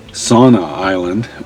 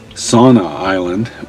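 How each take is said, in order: First: The name sounds like the word 'sauna'. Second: The name sounds like the word 'sauna'.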